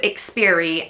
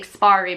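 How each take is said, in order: First: The name is said like experience, cut short. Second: The name is said like the word expiry. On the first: The speaker calls it right. "it's supposed to be called Experie" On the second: The speaker calls it wrong. "I always want to say Expiry because of how it's spelled"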